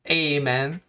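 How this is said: It is said with an American pronunciation. The speaker calls it wrong. "unlike the Americans, God bless them, who say Amen"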